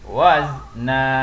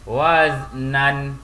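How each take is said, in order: First: The word ends with a lengthened vowel. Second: The word ends with an n sound. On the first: The speaker calls it right. "dibaca panjang dua harakat" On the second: The speaker calls it wrong. "Tidak boleh dibaca waznan, adalah salah"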